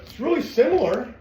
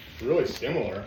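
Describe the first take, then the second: First: High, loud insistence on really; pushing hard to convince viewers it is really similar; emphatic. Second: Said in the usual way. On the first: Real, not acted. Trainer insisting to viewers his method is close, emphatic.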